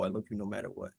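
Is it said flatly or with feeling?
with feeling. It is said warmly, with real feeling.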